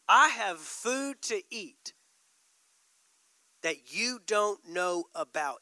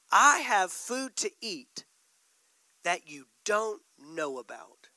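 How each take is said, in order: First: Same slow deliberate weight; slow, weighty repeat. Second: Each word laid down slowly; slow, weighty Jesus line. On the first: Preacher repeating Jesus to the church, slow and deliberate. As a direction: hold it, savor each word. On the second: Preacher voicing Jesus to disciples, slow and weighty. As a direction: let it land, unhurried. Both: Acted. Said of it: "But he said".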